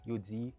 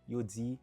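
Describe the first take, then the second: Both takes have the same delivery.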